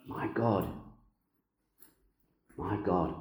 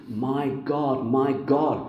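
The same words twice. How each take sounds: First: My God, my God said softer, almost to himself; hushed murmured My God, my God; soft hushed repeat. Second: My God, my God called out higher and louder; ringing cry of My God, my God; raised proclaiming cry. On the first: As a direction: let My God, my God fall quiet and reflective. Repeats the cry softly after pause. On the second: Quoting Jesus' cry, raised. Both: Acted.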